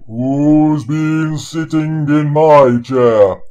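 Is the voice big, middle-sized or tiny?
big. It is said in a big, deep bear voice.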